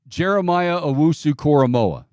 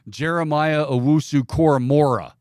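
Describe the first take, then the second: First: The surname ends in a vowel, without R. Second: The surname ends with an added R sound. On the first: The speaker calls it right. "It's just M O A H" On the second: The speaker calls it wrong. "as Mark Chan- Sanchez refers to him"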